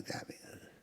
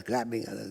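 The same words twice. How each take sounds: First: Breathy dying whisper of grabbing others; hushed whisper of grabbing others. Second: Said in the usual way. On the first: Real, not acted. Repetition fading to whisper.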